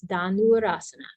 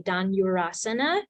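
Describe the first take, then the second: First: No y sound follows the n. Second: A y sound follows the n. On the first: The speaker calls it right. "there's no y sound. It's Dhanurasana" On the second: The speaker calls it wrong. "You'll hear a lot of teachers say Dhanurasana, and that's just a bad habit"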